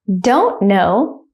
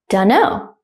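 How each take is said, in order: First: The two words are said slowly and separately. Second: The two words are run together quickly. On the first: "one time slowly" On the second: "at a normal speed, like a native speaker"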